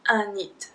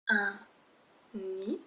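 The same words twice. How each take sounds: First: The word ends with an audible d sound. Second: The word ends without a d sound. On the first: The speaker calls it wrong. "We do not say un nid" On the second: The speaker calls it right. "we do not pronounce the D"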